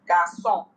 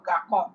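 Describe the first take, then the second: First: Garçon with an S sound for the ç; soft-C pronunciation. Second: Garçon with a K sound, like gar-KON; "garçon" mispronounced with a hard C; wrong hard C. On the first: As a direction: say "Garçon" with a soft, hissed S in the middle. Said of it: "it is just used to soften C to give it an S sound". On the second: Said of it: "instead of garçon". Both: Shown as a demonstration.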